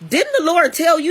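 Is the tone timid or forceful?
forceful. It is said boldly and confrontationally. The speaker confronts with authority. The speaker calls it right. "She came at him like"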